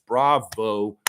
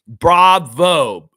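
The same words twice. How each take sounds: First: Said in the usual way. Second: Loud, exaggerated applause word; mock-congratulate them; sarcastic cheer; sarcastic bravo. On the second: Mocking congratulation.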